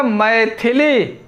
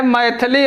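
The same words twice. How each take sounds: First: मैथिली slowly, mai-thi-lī; slow मैथिली with a clear thi; correct pronunciation. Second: मैथिली with an a, mai-tha-lī; wrong pronunciation. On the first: Teacher answering with the right word, correct pronunciation. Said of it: "इसका शुद्ध क्या होगा?". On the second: Teacher quoting the faulty word, wrong pronunciation. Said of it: "मैथिली अशुद्ध शब्द है". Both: Shown as a demonstration.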